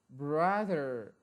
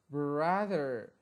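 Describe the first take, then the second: No difference in how they are said.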